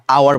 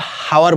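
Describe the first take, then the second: First: আওয়ার starting straight on the vowel; silent H. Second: হাওয়ার with an audible H at the start; sounded H. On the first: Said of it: "আমরা আওয়ার বলি". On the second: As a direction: say হাওয়ার as "how-er". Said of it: "এটা কিন্তু হাওয়ার বলি না". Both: Shown as a demonstration.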